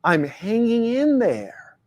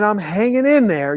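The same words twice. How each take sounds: First: Worn-out, droning stock reply; a man mimicking a tired stock answer, slow and drawn out; slow weary drawl. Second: Said in the usual way. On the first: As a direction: drag out the tired stock answer, much slower. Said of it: "culturally programmed responses". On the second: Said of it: "You ever heard that, "hanging in there"?".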